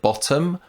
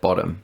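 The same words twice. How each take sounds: First: Every sound in the word is said carefully. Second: The word is said quickly with a reduced middle sound. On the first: "instead of bottom" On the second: "when I said it faster, ... I said bottom"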